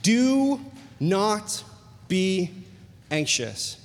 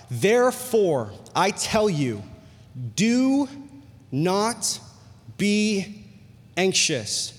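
First: Gentle spaced-out repeat; word-by-word stress. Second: Do, not, be, anxious each set apart by pauses; slow emphatic scripture reading; word-by-word stress. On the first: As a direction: separate each word, let "anxious" fall away. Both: Real, not acted. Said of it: "he repeats it again".

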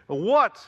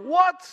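First: Shocked, loud rising what; exclaiming what. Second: Very high, loud shocked cry; outraged what. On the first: Shown as a demonstration. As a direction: blurt it out in disbelief. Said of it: "Exclamation mark". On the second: Retold or imitated. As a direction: shout it in disbelief. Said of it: "exclamation mark".

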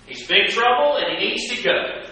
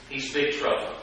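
First: Higher, louder accusing cry; mock outraged verdict. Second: Said in the usual way. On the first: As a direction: call him trouble like the accusers. Voicing critics' verdict.

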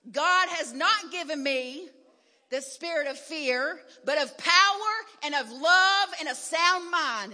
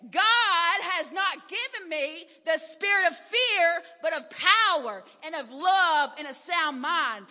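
First: Firm, louder declaration against fear; getting mad. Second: Shouted, higher and much louder, slow; real good and mad. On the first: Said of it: "So I got mad". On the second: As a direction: shout it at the fear with full force. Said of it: "Then I got real good and mad then". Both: Retold or imitated.

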